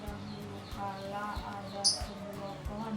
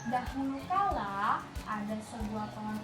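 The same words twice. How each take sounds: First: It is read in a flat, listless voice. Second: It is read in a lively, expressive voice. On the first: The speaker calls it wrong. "nggak boleh kayak ini" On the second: The speaker calls it right. "nggak boleh lesu-lesu ekspresinya"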